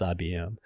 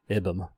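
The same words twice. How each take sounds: First: I B M said as three letter names; spelled out. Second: "ibm" sounded out as a word, "ibbum". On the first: Instructor showing an initialization, I B M spelled out. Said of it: "It's I B M". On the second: Instructor showing what can't be pronounced, "ibm" as one word. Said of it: "You can't pronounce". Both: Shown as a demonstration.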